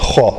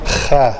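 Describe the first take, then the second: First: The kha sound is heavy, with a full vowel. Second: The kha sound is thin, with a fronted vowel. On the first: The speaker calls it right. "जो पुर हरूफ पढ़े जाते हैं, जो मोटे कहलाते हैं" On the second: The speaker calls it wrong. "ख़ै गलत है"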